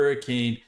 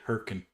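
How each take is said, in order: First: It is said as the full three-syllable word. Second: It is said clipped to two short syllables. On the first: The speaker is from outside the state. The speaker calls it wrong. "we immediately know you're not from Utah" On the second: The speaker is a local. The speaker calls it right. "the city is called Herkin"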